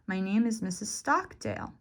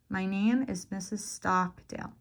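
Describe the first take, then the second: First: The stressed syllable has a marked pitch change. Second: The O vowel in Stockdale is drawn out longer. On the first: "You can change the pitch, the raise and fall of your voice" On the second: "Or the length of the vowel. So in my name, it's the O. I'll make it longer"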